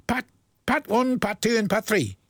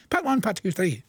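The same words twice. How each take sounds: First: Slow and careful. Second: Fast tongue twister. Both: Shown as a demonstration. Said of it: "Try and say that fast".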